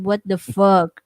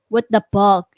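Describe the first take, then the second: First: The last word begins with an F sound. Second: The last word begins with a P sound. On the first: The speaker calls it right. "instead of" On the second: The speaker calls it wrong. "I have problem with F and P on how I pronounce it"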